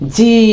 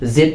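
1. এটি 'zee' হিসেবে বলা হয়। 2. এটি 'zed' হিসেবে বলা হয়। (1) "আসলে এটার উচ্চারণ হচ্ছে জি" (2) "আমরা যাকে ছোটবেলায় বা এখন পর্যন্ত কি জেড বলে থাকি"

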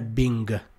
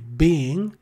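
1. La parola finisce con un suono G udibile. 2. La parola finisce senza un suono G. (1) "non è Bing" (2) "la G alla fine di being non si pronuncia"

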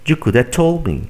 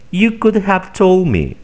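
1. 'Have' se reduce a una vocal. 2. 'Have' se pronuncia completo. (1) "Simplemente di" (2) "Otro ejemplo"

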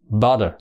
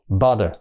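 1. Phụ âm ở giữa là âm d mềm. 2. Phụ âm ở giữa là âm d mềm.

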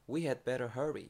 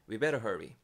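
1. 'had' 단어는 분명하게 발음됩니다. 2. 'had' 단어는 완전히 빠집니다. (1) "we had better hurry 이렇게도 말을 할수 있지만" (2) "자연스럽게 말할 때는 헤드가 심지어 발음이 안 듣길 정도"

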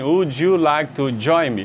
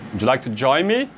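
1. As palavras são ditas separadamente, uma por uma. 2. As palavras saem todas juntas, num fluxo rápido. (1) "Mas aí você não vai falar assim" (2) "Você fala assim, ó. ... Sai tudo junto"

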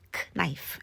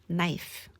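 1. K 소리는 발음돼요. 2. K 소리는 묵음이에요. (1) "크 나이프 아니고" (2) "K 묵음하는 연습"

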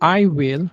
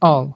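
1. দুটো শব্দই পুরোপুরি এবং আলাদাভাবে বলা হয়। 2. শব্দ দুটো মিলে একটি ছোট সিলেবলে পরিণত হয়েছে। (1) "আই উইল না বলে" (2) "স্পিকিং আমরা আই উইল না বলে অল বলবো"

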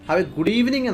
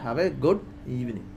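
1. Stress വരുന്നത് 'evening' എന്ന വാക്കിലാണ്. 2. Stress വരുന്നത് 'good' എന്ന വാക്കിലാണ്.

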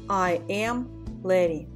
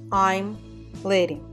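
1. Глагол произносится как полное слово. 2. Глагол сокращается до короткого m.

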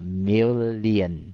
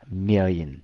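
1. Từ này được đọc thành ba âm tiết. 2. Từ này được đọc thành hai âm tiết. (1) "họ đọc thành ba âm luôn là million" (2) "Thì đó là cái cách đọc chính xác 100%"

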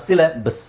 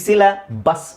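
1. ಒತ್ತು ಇಲ್ಲದ ಸ್ವರ ದುರ್ಬಲ, ಚಿಕ್ಕ 'schwa'. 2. ಒತ್ತು ಇಲ್ಲದ ಸ್ವರ ಪೂರ್ಣ, ತೆರೆದ 'ah'. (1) "ಸಿಲ ಬಸ್ ಅಂತ ಹೇಳಬೇಕು" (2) "ಸಿಲ ಬಸ್ ಅನ್ನೋದನ್ನು"

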